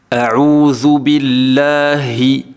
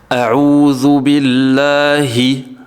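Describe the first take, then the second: No difference in how they are said.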